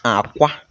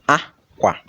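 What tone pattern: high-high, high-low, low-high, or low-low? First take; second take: low-high; high-low. First: The first syllable is low, the second high. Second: The first syllable is high, the second low. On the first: It means egg. "We are using low and high tone" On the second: It means clothes. "We are using high and low tone"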